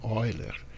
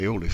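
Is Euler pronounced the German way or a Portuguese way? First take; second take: German; Portuguese. First: The name is pronounced the German way. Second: The name is pronounced the Portuguese way. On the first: "mas a pronúncia em alemão" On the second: "Pode pronunciar Euler se você quiser"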